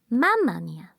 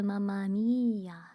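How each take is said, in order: First: The stress in Mamma is on the first syllable. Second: The stress in Mamma is not on the first syllable. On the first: The speaker calls it right. "The accent is in the first vowel" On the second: The speaker calls it wrong. "It's not uh"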